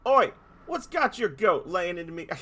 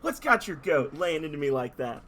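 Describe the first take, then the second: First: Loud, hammed-up Australian tough guy; Australian accent. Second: Loud, hammed-up Aussie tough guy, second try; Australian accent. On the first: Dolphin voicing an Australian accent at the heroes. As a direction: bark it like an Aussie bloke picking a fight. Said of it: "I cannot do this voice justice". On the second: Dolphin retrying his Australian accent on the heroes. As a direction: push the Australian accent harder. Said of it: "I already can't do it".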